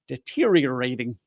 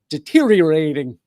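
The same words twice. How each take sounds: First: Every syllable is carefully and fully pronounced. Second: The syllables are loosely and casually run together. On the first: "See, I can say it correctly" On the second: "So I'd rather just say deteriorating"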